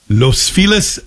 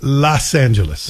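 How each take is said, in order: First: LOS Feliz with a long "oh" in Los, lifted at the end; contrasting Los pronunciation. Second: LOS Angeles with a short open "ah" in Los; contrasting Los pronunciation. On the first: Host shows same spelling said differently, long-o Los Feliz. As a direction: say Los like "lohss" before Feliz. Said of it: "it's pronounced differently". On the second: Host shows same spelling said differently, open-vowel Los Angeles. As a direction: say Los like "lahss" before Angeles, falling. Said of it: "same spelling". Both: Shown as a demonstration.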